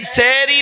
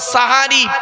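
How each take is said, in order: First: The first syllable has an 'e' vowel. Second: The first syllable has an 'a' vowel. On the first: The speaker calls it wrong. "এই সেহরি নয়" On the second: The speaker calls it right. "শব্দটা সাহারি"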